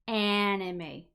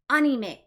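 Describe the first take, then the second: First: It is said with English pronunciation. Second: It is said with Japanese pronunciation. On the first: The speaker is speaking English. "if I'm speaking English, I'm going to say anime" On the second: The speaker is speaking Japanese. "If I'm speaking Japanese, I'm going to say anime"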